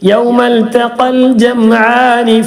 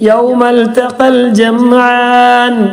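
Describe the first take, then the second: First: The last word ends in a short vowel. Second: The last word ends on a stopped consonant. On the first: The reading continues into the next words. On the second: The reading stops at this point.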